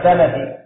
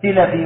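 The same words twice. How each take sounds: First: سلفي said with an a after the s, "salafi"; fatha on the first vowel. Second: سلفي said with an i after the s, "silafi"; kasra on the first vowel. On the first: Student offers the other reading, سلفي said "salafi" with fatha. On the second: Student asks the scholar which vowel, سلفي said "silafi" with kasra. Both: Shown as a demonstration. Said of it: "هل هي بالفتح ولا بالكسر".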